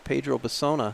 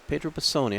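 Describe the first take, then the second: First: The surname ends in an 'ah' sound. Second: The surname ends in an 'ee' sound. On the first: The speaker calls it wrong. "I've been calling him Pedro Bassona" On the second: The speaker calls it right. "it's Pedro Bassoni"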